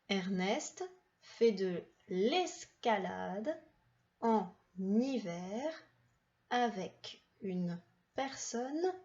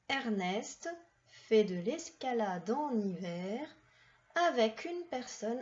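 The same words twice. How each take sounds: First: The sentence is read at a slower pace. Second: The sentence is read at a faster pace.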